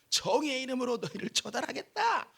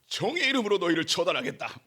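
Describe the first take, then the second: First: The line comes out in an awkward voice. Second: The line is said in a dramatic heroic voice. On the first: The speaker calls it wrong. "목소리 왜 이러지?" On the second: The speaker calls it right. "멋지게 해야 되는데"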